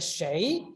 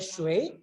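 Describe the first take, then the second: First: The word sounds like 'shay', with no glide. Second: The word sounds like 'shway', with a 'w' glide. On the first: "bisa dibaca shei" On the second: "ini bisa dibaca shui"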